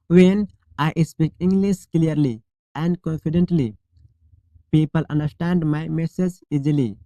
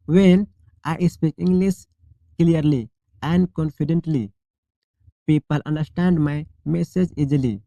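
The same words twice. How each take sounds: The two takes are said the same way.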